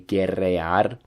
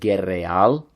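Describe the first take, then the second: First: The word ends with a trilled R sound. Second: The word ends with an L sound. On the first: "the correct form of the verb would be guerrear" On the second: "you're going to hear it like guerreal. So that R kind of turns into an L"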